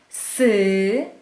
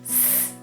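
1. Po spółgłosce słychać krótkie y. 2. Spółgłoska jest wymawiana sama, bez samogłoski. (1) "Przegłoskowałam syoky" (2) "Powinnam zrobić to tak"

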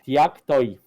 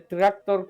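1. Głoski R zastępuje się innymi dźwiękami. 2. Głoski R wymawia się normalnie.

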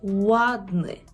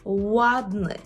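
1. Слово починається з округленого звука w. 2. Слово починається з округленого звука w.

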